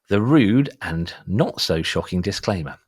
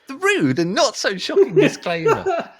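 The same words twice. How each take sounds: First: It is read in a natural speaking voice. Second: It is read in a put-on character voice. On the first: The speaker calls it wrong. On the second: The speaker calls it right.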